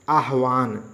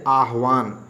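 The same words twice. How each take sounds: No difference in how they are said.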